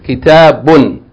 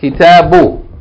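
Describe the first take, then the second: First: The word ends with an added n sound. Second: The word ends on a plain vowel. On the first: "kitabu with an N" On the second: "pronouncing this word with a single vowel"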